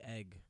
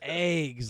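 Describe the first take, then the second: First: The vowel is a short 'eh' sound. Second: The vowel is a long 'ay' sound. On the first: The speaker calls it right. "I don't say um eggs the right way" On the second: The speaker calls it wrong. "I say it like there's an A Y"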